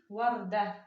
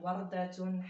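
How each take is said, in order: First: The word ends without a final t sound. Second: The word ends with a spoken 'tun' ending. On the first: "On dit warda" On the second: "On n'a pas besoin de dire wardatun"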